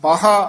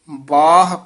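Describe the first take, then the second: First: A long aa vowel is added after the h. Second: The long vowel comes before h, which ends softly. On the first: The speaker calls it wrong. "ਇਹ ਬਾਹ ਕਹਿ ਦਾਂਗੇ ਤੇ ਹਾਹੇ ਦੇ ਕੰਨਾਂ ਵੀ ਲੱਗ ਜਾਂਦਾ" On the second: The speaker calls it right. "ਹਾਹੇ ਤੇ ਆਵਾਜ਼ ਛੱਡ ਦੇਣੀ ਹੈ। ਬਾਹ ਇਸ ਤਰ੍ਹਾਂ"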